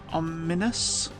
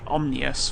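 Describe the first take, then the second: First: A vowel is heard between the m and n. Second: The m runs straight into the n.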